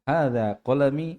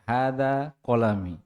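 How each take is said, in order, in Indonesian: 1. Diucapkan dengan nada bertanya. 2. Diucapkan dengan nada datar, seperti pernyataan. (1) "nadanya tidak boleh hada kolami, tidak boleh begitu dia" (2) "Ini mengabarkan"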